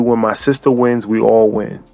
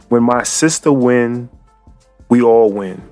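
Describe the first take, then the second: First: It is said at a normal pace. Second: It is said slowly and deliberately.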